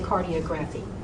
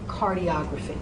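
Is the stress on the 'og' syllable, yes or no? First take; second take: no; yes. First: The stress is not on the 'og' syllable. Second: The stress is on the 'og' syllable. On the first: The speaker calls it wrong. "so don't say cardiography" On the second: The speaker calls it right. "Say photography, say cardiography"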